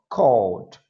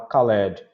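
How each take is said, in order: First: The -ed ending is not sounded as a syllable. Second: The -ed ending is sounded as a separate syllable. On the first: The speaker calls it right. "Repete comigo" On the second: The speaker calls it wrong. "não pode puxar no ed e falar called"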